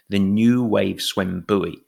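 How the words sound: Buoy is said the American way.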